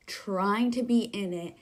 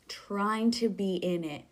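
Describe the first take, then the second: No difference in how they are said.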